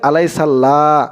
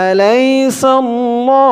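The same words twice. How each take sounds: First: আলাইসাল্লাহ ending in thin open "laa"; wrong light "la". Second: আলাইসাল্লাহ chanted high and slow, ending in rounded "lo"; heavy "lo". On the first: Teacher quoting a common mistake, আলাইসাল্লাহ with light "laa". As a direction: say আলাইসাল্লাহ with "la" instead of rounded "lo". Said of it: "অনেকে বলে". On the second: Teacher correcting learners, আলাইসাল্লাহ with held "lo", not "la". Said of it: "ল বলতে হবে". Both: Shown as a demonstration.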